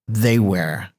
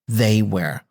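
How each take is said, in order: Both takes have the same delivery.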